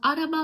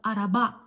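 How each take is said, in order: First: The stress is not on the last syllable. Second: The stress is on the last syllable. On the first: The speaker calls it wrong. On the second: The speaker calls it right. "into last vowel in the nouns"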